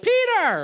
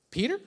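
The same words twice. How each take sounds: First: Very high, loud teasing call; mock greeting shout. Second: Imitating an unsure child's questioning answer; tentative guess with rising pitch; clueless daughter's guess. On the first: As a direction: holler the nickname as she walks in. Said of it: "when she comes in the door, we're like". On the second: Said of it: "And she's like".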